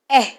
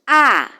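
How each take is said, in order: First: The vowel is a fronter 'eh' sound. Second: The vowel is an open 'ah' sound. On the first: This is the vowel as used in English. "then becomes in English eh" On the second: This is the vowel as read in African vernacular languages. "what we have been taught as the sound ah"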